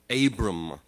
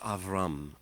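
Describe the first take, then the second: First: The middle consonant is a b sound. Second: The middle consonant is a v sound. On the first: This is the usual Western way of saying it. The speaker calls it wrong. "what his name is usually called by Westerners who don't understand the, the way of pronunciation in Hebrew" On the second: This is the Hebrew way of saying it. The speaker calls it right. "but it's Avram"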